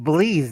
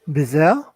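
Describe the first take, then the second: First: The word ends with a 'leez' sound. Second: The word ends with a 'zel' sound. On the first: The speaker calls it right. "That's how you pronounce it" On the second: The speaker calls it wrong. "I can't pronounce its name"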